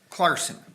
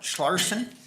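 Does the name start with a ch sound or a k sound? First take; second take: k sound; ch sound. First: The name starts with a k sound. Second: The name starts with a ch sound. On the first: The speaker calls it right. "A silent H, if you will" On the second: The speaker calls it wrong. "like Larson with a C H on the front"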